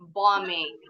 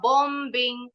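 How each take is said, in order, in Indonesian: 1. Bunyi b tidak terdengar di tengah. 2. Bunyi b diucapkan di tengah. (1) "tapi bombing. B-nya nggak bunyi" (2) "nggak boleh bilangnya bombing"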